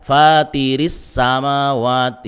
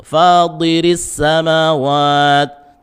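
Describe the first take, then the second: First: "fatiris samawat" with a light plain "t"; unthickened "ti" in "fatiris samawat"; wrong thin t. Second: Slow, higher, louder chanted "Fadiris samawat" with a heavy "di"; "Fadiris" with dark Arabic emphatic ta; thick emphatic t. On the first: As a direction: show the mistake: "fatiris", tongue back left down. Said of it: "Tidak dibaca fatiris samawat". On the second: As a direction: recite "Fadiris samawat" slowly, tongue back raised on "di". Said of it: "pangkal lidah naikkan". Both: Shown as a demonstration.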